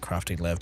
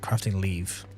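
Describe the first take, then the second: First: The second word has a short vowel. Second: The second word has a long vowel. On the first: "That's technically a crafting lev" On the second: "Or leave"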